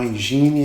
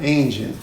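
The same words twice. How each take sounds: First: Engine said EN-zhee-nee, Portuguese-style; wrong engine. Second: Engine said EN-jen, English way; correct engine. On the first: Boy misreads his father's checklist, Portuguese-style. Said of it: "eu mandei um engine". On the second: Father corrects the boy, English pronunciation. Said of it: "Não, engine". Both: Retold or imitated.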